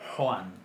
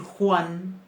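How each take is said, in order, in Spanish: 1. La primera consonante se produce muy atrás en la garganta. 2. La primera consonante se produce más adelante en la boca. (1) "Más atrás en la garganta" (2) "en vez de decir"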